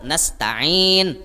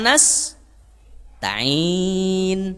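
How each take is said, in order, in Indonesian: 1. Kata itu mengalir tanpa jeda sama sekali. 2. Ada jeda antara nas dan ta'in. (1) "Langsung aja" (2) "Nasnya bemendak"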